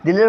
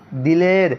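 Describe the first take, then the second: First: دلیر mispronounced as di-leer; wrongly pulled to ee. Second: دلیر said di-ler, with an open e; open e, ya majhool. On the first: Teacher warns students of the wrong reading, ee instead of e. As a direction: turn the last e of دلیر into ee. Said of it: "دلیر کو کھینچنا دلیر ہو جائے گا". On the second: Teacher gives a second example, open e. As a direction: keep the last vowel of دلیر at e, not ee. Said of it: "جو یا کھینچ کر نہ پڑھی جائے". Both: Shown as a demonstration.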